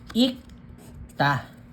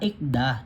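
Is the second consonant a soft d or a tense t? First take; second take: tense t; soft d. First: The second consonant is a tense t sound. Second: The second consonant is a soft d sound. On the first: The speaker calls it right. "ang basa, ikta" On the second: The speaker calls it wrong. "yung iba nako-confuse, ang basa nila, ikda"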